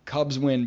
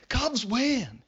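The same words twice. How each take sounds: First: Said in the usual way. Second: Higher, jubilant cry of victory; excited cheer. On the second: Real, not acted. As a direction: shout it like the final out just landed. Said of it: "Cubs win, baby".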